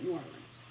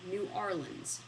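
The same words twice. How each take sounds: First: The name is said very fast and run together. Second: The name is said at a normal, unhurried speed.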